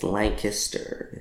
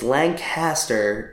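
First: It is pronounced the Pennsylvania way. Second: It is pronounced the California way. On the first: It names the town in Pennsylvania. "It's Lancaster if it's Pennsylvania" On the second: It names the town in California. "It's Lancaster if it's California"

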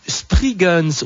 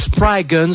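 First: The first vowel sounds like 'ee'. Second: The first vowel sounds like 'eye'. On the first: The speaker calls it wrong. "un groupe qui s'intitule Spriggans" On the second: The speaker calls it right. "je pense que ça se prononce plutôt comme ça, puisque quand le I est accentué, il se prononce I"

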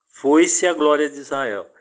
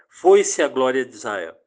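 No difference in how they are said.

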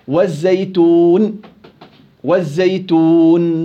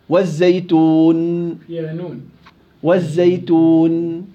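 The two takes are said the same way.

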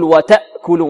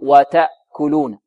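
First: The glottal stop is pressed hard and forceful. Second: The glottal stop is light and smooth. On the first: The speaker calls it wrong. "البعض ربما يضغط على الهمزة فيأتي بها يعني كالمتهوع" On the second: The speaker calls it right. "هكذا يأتي بها يلطف الهمزة"

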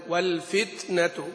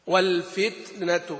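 The two takes are said the same way.

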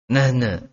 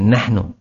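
First: The word ends with an 'a' vowel. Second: The word ends with a 'u' vowel. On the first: This is the colloquial regional form. The speaker calls it wrong. "Itu nahna itu perkataan orang-orang Jordan, orang-orang Syria" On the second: This is the standard form. The speaker calls it right. "Harusnya nahnu"

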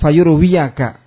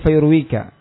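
First: The word is said with a 'ya' syllable. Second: The word is said without a 'ya' syllable. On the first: The speaker calls it wrong. "Bukan fayurwiyaka" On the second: The speaker calls it right. "Ya di sini fayurwika"

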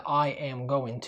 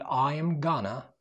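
First: Every word is said in full. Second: Going to is reduced to gonna. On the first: "قلنا قبل كده I am going to" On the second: "ممكن تقول I am gonna"

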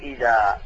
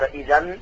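First: The word ends with a long a vowel. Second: The word ends with an n sound. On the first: The speaker stops at this word. "فإنك عند الوقت تقول إذا" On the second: The word is said within running speech. "جعلته فتحتين وقلت إذا"

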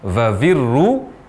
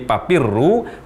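First: The word is said with v sounds. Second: The word is said with p sounds. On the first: "ini perubahan huruf fa menjadi huruf v" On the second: "perubahan huruf fa menjadi huruf p"

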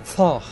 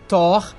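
First: The name is said with an English pronunciation. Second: The name is said with a Portuguese pronunciation. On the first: The speaker calls it right. "já que eu tô aqui nesse momento speak English" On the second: The speaker calls it wrong. "não é Thor"

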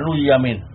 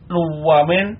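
First: The middle consonant is a y sound. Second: The middle consonant is a w sound. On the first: The original waw is changed to ya. "kalau iklal maka diganti dengan ya" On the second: The original waw of the root is kept. "Kalau tasrih tetap wawu"

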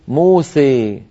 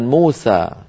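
First: The final vowel leans strongly toward 'e'. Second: The final vowel is a fully open 'a'. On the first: "يميلها أكثر وأكثر بما يسميه العلماء الإمالة الكبرى" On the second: "من كان يفتح الألفات وهو الأصل"

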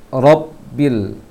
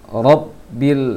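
No difference in how they are said.

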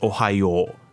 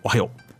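First: The final vowel is held long and stretched. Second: The final vowel is short and clipped. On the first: "she extends it. It becomes おはよう. That U kind of extends the O" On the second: "some people might just say おはよう"

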